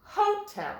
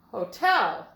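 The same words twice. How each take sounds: First: "Hotel" as HO-tel, first syllable high; "Hotel" wrongly accented, HO-tel; stress on first syllable. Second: "Hotel" as ho-TEL, TEL punched louder; "Hotel" with a light ho, strong TEL; stress on second syllable. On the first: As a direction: hit HO in "Hotel", let tel drop. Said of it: "Let's try to say that word and see if this is correct". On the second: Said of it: "Let's try it with the accent on the second syllable". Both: Shown as a demonstration.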